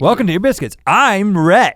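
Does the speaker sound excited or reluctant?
excited. The greeting sounds more lively and excited. The speaker is glad to be here. "Does that sound more excited?"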